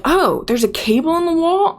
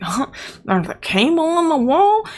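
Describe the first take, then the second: First: High, baffled mock question; mock clueless office lady. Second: High, incredulous echo of "There's a cable in the wall?"; mock disbelief. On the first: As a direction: play her as dim and surprised, a bit hammed-up. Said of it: "She's like". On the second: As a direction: throw her words back in mock shock. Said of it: "I'm like".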